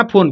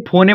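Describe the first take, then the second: First: फोन said as one syllable, no final e; correct reading. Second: फोने read with a final e sound, wrong. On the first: Teacher giving students the right reading, plain फोन. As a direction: say फोन short, the e silent. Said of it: "फोन पढ़ना". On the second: Teacher showing students the wrong reading, फोने with final e. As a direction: say फोने as two syllables, फो-ने. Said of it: "मत पढ़ना". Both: Shown as a demonstration.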